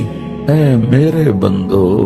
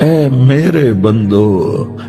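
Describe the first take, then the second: The two takes are said the same way.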